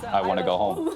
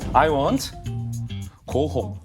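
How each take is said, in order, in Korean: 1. 단어들이 끊김 없이 이어져 있어요. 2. 단어들이 작은 끊김으로 나뉘어 있어요.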